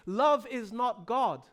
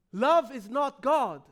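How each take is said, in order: Both takes have the same delivery.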